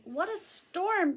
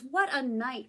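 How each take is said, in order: First: Higher, drawn-out bird voice; lightly voiced high, slow wren; twittering wren. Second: Lightly voiced mole at usual pitch; understated storybook mutter. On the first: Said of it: "twitters wren". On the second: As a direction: say it as a grumbly little mole, lightly. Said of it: "Mole mutters". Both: A narrator's reading.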